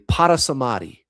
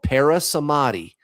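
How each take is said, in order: First: It is said with a careful Sanskrit pronunciation. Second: It is said with a casual English pronunciation.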